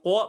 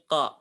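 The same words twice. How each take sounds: First: It is said with pushed-out, rounded lips. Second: It is said with the mouth held open. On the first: The speaker calls it wrong. "bukan ko" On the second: The speaker calls it right. "tapi ko ... Rongga mulutnya terbuka"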